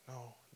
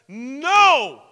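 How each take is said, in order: First: It is said softly and apologetically. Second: It is said loudly and firmly.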